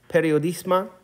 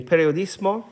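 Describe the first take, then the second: First: "periodismo" ending slurred to "periodisma"; slip of the tongue. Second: "periodismo" said cleanly with a clear final "o"; self-correction. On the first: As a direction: say "periodismo" with a lax final "a" instead of "o". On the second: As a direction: correct yourself, landing the "o" in "periodismo". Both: Real, not acted. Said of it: "excuse me, periodismo".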